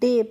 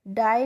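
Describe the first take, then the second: First: The vowel sounds like 'ay'. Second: The vowel sounds like 'eye'. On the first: The speaker calls it right. "डे पढ़ते हैं" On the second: The speaker calls it wrong. "D A बाई को डाई नहीं"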